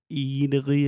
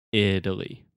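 First: "Italy" higher, with a long EE like "Eataly"; "Italy" opening on a tense, raised EE; wrong pronunciation demo. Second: "Italy" with a short I and D-like T; teacher's corrected model of "Italy". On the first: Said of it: "Okay, but it's not". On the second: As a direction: say "Italy" as "Idaly", not "Eataly". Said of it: "It's not the restaurant". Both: Shown as a demonstration.

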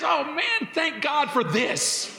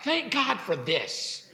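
First: High bright burst of thanks, slowing on thank God; joyful thankful exclaim. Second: Soft, slow thank God for this; quiet thanks. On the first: Preacher showing the grateful way to react. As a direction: exclaim it like you just found a blessing. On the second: Preacher repeating the grateful reply softly. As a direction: let the thanks settle, quietly. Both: Shown as a demonstration. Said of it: "rather than".

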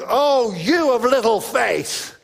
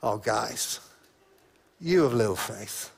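First: Loud, slow, stern rebuke; stern booming rebuke, drawn out; strong strident Jesus. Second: Soft, low, tender rebuke; much softer and lower gentle rebuke; gentle Jesus. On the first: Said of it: "a kind of strong, strident Jesus going". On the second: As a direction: say it kindly, like a sigh to friends. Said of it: "I wonder whether it was much more gentle". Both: Shown as a demonstration.

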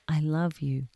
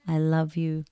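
First: Said in the usual way. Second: Whispered. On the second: Shown as a demonstration. Leading listeners to whisper the mantra first, in a whisper. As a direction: whisper the words, no voice. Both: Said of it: "Whisper it at first".

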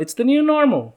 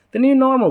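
First: High nasal southern twang on new normal; Tiger King southern accent. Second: High, nasal southern twang on new normal; nasal southern impression. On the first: Retold or imitated. Mimicking the Tiger King guy, nasal southern accent. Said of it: "I think I did it in his accent". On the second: Making his sister laugh, nasal southern impression. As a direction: do the silly nasal Tiger King voice. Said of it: "I do the, like, little nasally thing".

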